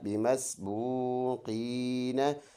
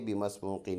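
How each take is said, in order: First: The word ends with a short a after n. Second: The word ends on the n sound. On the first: "نون زبرنا" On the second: "stop करेंगे तो नून का ज़बर साइलेंट कर लेंगे"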